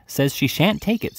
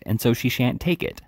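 First: Slower, higher, leaning on "shan't take it"; indignant repeat. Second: Said in the usual way. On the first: A narrator's reading. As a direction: drag out "shan't" in outrage. Beadle repeats the complaint.

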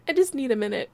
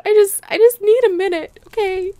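First: Said in the usual way. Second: Hammed-up grief. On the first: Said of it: "sometimes I just". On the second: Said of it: "I'm so sad".

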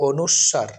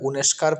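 First: অনুস্বার as o-nush-shar, no k; correct letter name. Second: উনেস্কার with u and sk, u-nesh-kar; common mispronunciation. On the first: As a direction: lengthen the sh in অনুস্বার. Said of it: "উচ্চারণটি হচ্ছে". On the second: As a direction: put a k into উনেস্কার. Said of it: "কোনোটাই সঠিক নয়।". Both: Shown as a demonstration.

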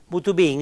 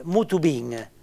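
First: Said in the usual way. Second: Mutu bin said slowly, each syllable spelled out; careful pronunciation. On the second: Shown as a demonstration. Teacher slowly sounding out a Piedmontese phrase for learners, careful and deliberate. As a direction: lay out "mutu bin" slowly for the class, stress landing on the i of bin. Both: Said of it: "l'accento a san sima la i ad bin".

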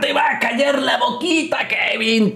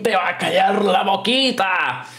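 First: High gloating yell; taunting shout. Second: Said in the usual way. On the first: Real, not acted. Taunting wrestler on screen.

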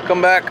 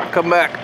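The two takes are said the same way.

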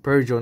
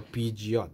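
First: Peugeot said as "PUR-zho", silent T; correct pronunciation. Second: Peugeot misread as "PEE-jot"; mispronunciation. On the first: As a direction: say Peugeot in two syllables, ending on "oh". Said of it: "it's pronounced Peugeot". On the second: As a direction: say Peugeot with an "ee" and a sounded final T. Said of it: "not Pugot or Peugeot". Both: Shown as a demonstration.

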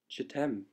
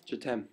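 First: "Je t'aime" said again in French, soft and falling; French phrase. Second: "Je t'aime" said in French, nasal end; soft French "Je t'aime"; French phrase. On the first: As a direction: repeat the French "Je t'aime" softly. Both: Shown as a demonstration. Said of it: "or I say".

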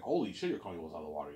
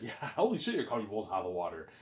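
First: Said in the usual way. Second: Laughing, stunned disbelief; a mock-amazed gasp of a reaction with a laugh; shocked. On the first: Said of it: "He's like". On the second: Ivan reacting to the huge budget, mock shocked. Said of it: "he's shocked".

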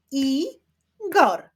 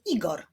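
First: "Igor" split as I-gor, higher and louder; syllable by syllable. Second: Said in the usual way. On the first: Shown as a demonstration. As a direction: clap out "Igor" in two separate beats. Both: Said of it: "wyklaszczmy sylaby w imieniu Igor".

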